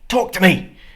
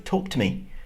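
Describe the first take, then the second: First: It is said loudly and angrily. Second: It is said at a normal, calm volume.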